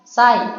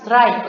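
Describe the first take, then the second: First: The R sound is silent after the S. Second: An R sound is pronounced after the S. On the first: The speaker calls it right. "hanya sai" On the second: The speaker calls it wrong. "bukan dibaca serai"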